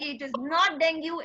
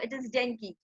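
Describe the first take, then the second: First: "dengue" said as deng-gyoo, ending in a yoo sound; the wrong way, "dengue" rhyming with "you"; wrong pronunciation. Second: "dengue" said softly as deng-kee, ending in kee; the right way, "dengue" quietly with a kee ending; correct pronunciation. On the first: Teacher to student, showing the wrong "dengue". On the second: Teacher to student, quietly showing the right "dengue". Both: Shown as a demonstration.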